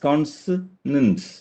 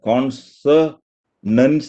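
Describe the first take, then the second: First: The unstressed vowels are weak and reduced. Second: All vowels are said fully and evenly. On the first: The speaker calls it right. "ബാക്കിയൊക്കെ വീക്ക് ആയിരിക്കും" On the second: The speaker calls it wrong. "Consonants അല്ല"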